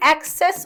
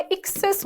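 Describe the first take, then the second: First: "एक्सेस" starting with an open "ae" sound, as in access. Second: "एक्सेस" starting with a short "i", as in excess; E sound. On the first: Teacher showing students a similar word, "एक्सेस" opened with "ae". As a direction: say "एक्सेस" as "aek-ses". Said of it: "इन दोनों का pronunciation अलग है". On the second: Teacher showing students the difference, "एक्सेस" opened with "ik". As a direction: say "एक्सेस" as "ik-ses". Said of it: "ई का sound आएगा". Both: Shown as a demonstration.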